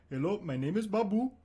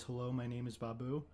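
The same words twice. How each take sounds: First: Higher, louder simple-minded voice; Babu voice. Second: Said in the usual way. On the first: Acted. Showing his date the Babu character voice. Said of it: "a pretty cool character I've been working on". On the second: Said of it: "all he's capable of saying is".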